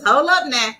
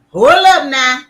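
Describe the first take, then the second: First: It is said in a put-on character voice. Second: It is said in her ordinary speaking voice.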